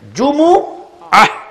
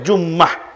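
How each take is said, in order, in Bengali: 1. এতে তিনটি সিলেবল আছে, m-এর পরে একটি স্বরধ্বনি আছে। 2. এতে দুটি সিলেবল আছে, m দ্বিত্ব। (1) "জিম পেশ জু, মিম পেশ মু, আইন জবর আ" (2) "জুমুআকে আমরা বলি জুম্মাহ"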